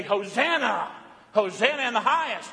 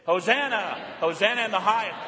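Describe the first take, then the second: First: Joyful acclaim. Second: Leading the congregation in the shout; call and response. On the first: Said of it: "we say". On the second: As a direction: say it together with them. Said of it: "say it with me". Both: Shown as a demonstration.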